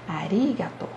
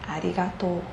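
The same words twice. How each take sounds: First: The pitch accent falls on the syllable ri. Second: The pitch accent falls on the syllable to. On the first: This is how it is said in Tokyo. "a ênfase vai ser no ri" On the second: This is how it is said in Osaka. "o acento é no to"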